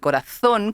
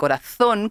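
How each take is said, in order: First: The z is said like English th. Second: The z is said like English th.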